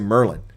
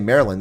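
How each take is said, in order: First: The name is squeezed to sound like Merlin. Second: The name is said with all its syllables. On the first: This is how locals say it. "they say Merlin, like Merlin the magician" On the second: This is not how locals say it. "A lot of people in Maryland don't say Maryland"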